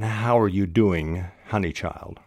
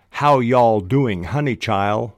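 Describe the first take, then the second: First: Said in the usual way. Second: Drawn-out, louder Southern drawl; slow, loud Southern "how y'all"; Southern accent. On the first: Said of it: "nevertheless should be written". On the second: Shown as a demonstration. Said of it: "a character might well sound like".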